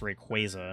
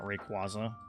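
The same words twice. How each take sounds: First: The middle syllable sounds like 'qua' in quasar. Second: The middle syllable differs from 'qua' in quasar. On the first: The speaker calls it right. "it's Rayquaza, ... think of it like Quasar" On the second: The speaker calls it wrong. "not Rayquaza"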